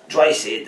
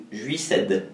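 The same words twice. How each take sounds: First: Juiced said as "Dry Seed"; own pronunciation. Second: "Juiced" read the French way; French pronunciation. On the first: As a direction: say "Dry Seed" in two drawn English-style syllables. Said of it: "moi je le prononce comme ça". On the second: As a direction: say "Juiced" as a French word, "jui-ced". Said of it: "Ou en français". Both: Shown as a demonstration.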